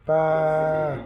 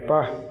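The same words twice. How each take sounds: First: The vowel is drawn out long. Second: The vowel is short and clipped.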